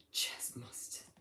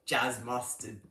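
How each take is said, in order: First: Whispered name. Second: Said in the usual way. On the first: Real, not acted. Streamer reading a chat username to himself, whispered. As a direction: breathe the name under your breath.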